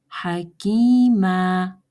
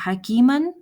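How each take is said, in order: First: The word ends on a drawn-out long a. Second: The word ends with an n sound.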